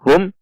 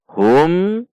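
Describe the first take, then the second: First: The final m is cut off abruptly. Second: The final m is plain and moderate. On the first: The speaker calls it wrong. "atau dihentak seperti contoh hum" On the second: The speaker calls it right. "dibaca jelas"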